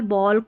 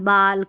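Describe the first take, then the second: First: The vowel is a rounded 'aw' sound. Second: The vowel is an open 'ah' sound. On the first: The speaker calls it right. "इस तरीके से आप pronounce करेंगे" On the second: The speaker calls it wrong. "ऐसे नहीं पढ़ेंगे"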